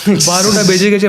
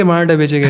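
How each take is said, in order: First: "बारहटा" said as "paroṭa", rounded middle vowel; o-vowel version. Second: "बारहटा" said as "paraaṭa", open middle vowel; a-vowel version. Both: Shown as a demonstration. Contrasting near-identical Bengali-style phrases.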